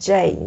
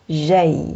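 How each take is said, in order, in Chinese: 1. 这个字母名的发音是英语的。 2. 这个字母名的发音是法语的。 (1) "有很多人喜欢把它读成j，就是受英语的影响" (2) "我们读j j，对吧？"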